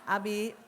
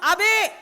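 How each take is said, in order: First: The call is at a normal, pleasant pitch. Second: The call is pitched extremely high and shrill. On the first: The wife is calling sweetly the first time. "waktu ngomong Abi masih cantik" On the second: The wife is annoyed after being ignored twice. "yang ketiga kali naik tujuh oktav"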